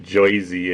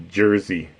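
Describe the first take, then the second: First: "Jersey" said as JOY-zee; mock Joisey pronunciation. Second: Said in the usual way. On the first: Shown as a demonstration. Streamer showing the wrong way, "Jersey" as JOY-zee. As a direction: say "Jersey" with an oy vowel, no r. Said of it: "it's Jersey". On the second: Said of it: "that's how I say it".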